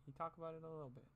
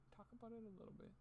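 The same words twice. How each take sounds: First: Said in the usual way. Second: Mocking squeaky high voice. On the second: Echoing a critic's words in a silly high mock voice. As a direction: pitch it up to mock the line. Mocking voice, then plain repeat.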